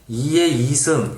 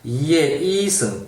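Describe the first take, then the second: First: Both 이 syllables are said on one flat pitch. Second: The two 이 syllables are said on different pitches. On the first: "요럴 때는 억양이 안 살아있지만" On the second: "요렇게 이야기했을 때는 이, 이와 이가 구별이 되죠"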